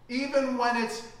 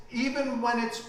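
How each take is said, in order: Both takes have the same delivery.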